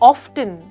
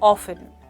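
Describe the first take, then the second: First: The word is said with a t sound. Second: The word is said without a t sound. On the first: "आप इस word को ऑफ्टन इस तरह से भी कह सकते हैं" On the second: "इसके लिए आप इंग्लिश में कह सकते हैं ऑफन"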